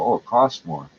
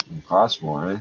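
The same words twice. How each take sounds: First: Quoting the bar owners' whiny excuse; a lightly mocking "costs" stressed and falling. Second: Low, "costs" leaned on, rising on "eh"; sarcastic retort. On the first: Mimicking bar owners excusing themselves, lightly mocking. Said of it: "Very simple". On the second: Real, not acted. Ranting vlogger mocks bar owners' excuse, sarcastic. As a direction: throw "costs more" back with scorn. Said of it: "How often do you replace shattered glass?".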